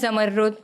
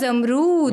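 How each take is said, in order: First: It has a doubled, held 'rr' sound. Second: It starts with 'za' and has a long 'roo'. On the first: This is how Pashto speakers say it. "Pashto जो है ... सबसे अच्छा pronounce करते हैं" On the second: This is how people from Karachi say it. "Karachi के जो लोग हैं"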